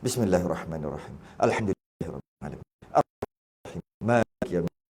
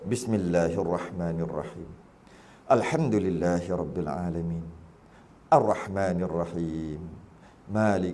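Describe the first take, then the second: First: It is recited quickly. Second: It is recited at a slow, usual pace.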